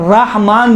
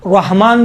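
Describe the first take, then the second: First: رحمان with an open "rah"; no w-colour on the R of رحمان; plain open ra. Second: رحمان with a w-coloured first syllable; thick rounded R in رحمان; heavy rounded ra. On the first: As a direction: keep رحمان unrounded, "raah-maan". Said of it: "رحمان بھی صحیح ہے". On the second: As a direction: say رحمان as "rawh-maan". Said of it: "واو جیسا تلفظ ہوتا ہے". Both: Shown as a demonstration.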